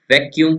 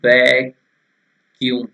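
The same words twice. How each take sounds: First: Said in the usual way. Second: वैक्यूम drawn out in two slow pieces; split-up vacuum. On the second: Retold or imitated. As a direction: break वैक्यूम into वै... क्यूम with a long first part. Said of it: "ऐसे कर देंगे". (वैक्यूम को धीरे-धीरे तोड़कर, वै... क्यूम)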